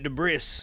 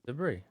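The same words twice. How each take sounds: First: The final S sound is pronounced. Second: The final S sound is silent.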